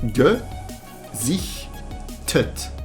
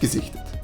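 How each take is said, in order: First: It is said slowly, syllables separated by pauses. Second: It is said quickly, syllables run together. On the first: "let's take that apart" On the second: "if you say it quickly"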